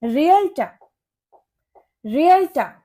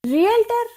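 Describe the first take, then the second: First: रियल्टर as REE-ul-tuh, silent final R; correct pronunciation. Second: रियल्टर with final R sounded, high pitch; common mispronunciation. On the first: Teacher corrects learners, correct pronunciation. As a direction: end रियल्टर on an open TAH. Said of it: "इसकी correct pronunciation होती है". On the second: Teacher shows learners the mistake, mispronounced word. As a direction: say रियल्टर as REE-el-TER. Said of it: "ये रियल्टर नहीं होता". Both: Shown as a demonstration.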